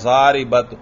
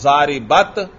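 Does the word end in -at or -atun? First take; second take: -at; -at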